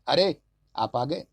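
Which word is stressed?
अरे. The stress is on the first word.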